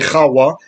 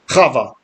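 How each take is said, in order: First: The middle consonant is a W sound. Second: The middle consonant is a V sound. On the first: This is the ancient original pronunciation. The speaker calls it right. "I like to say Chawa" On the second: This is the usual later pronunciation. The speaker calls it wrong. "instead of Chava"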